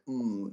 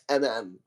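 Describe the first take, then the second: First: It is said as one connected hum. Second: It is said as two separate letter names. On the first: The speaker calls it wrong. "it does read mm, if you connect the two M's" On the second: The speaker calls it right. "perhaps M M is a more appropriate way of pronouncing it"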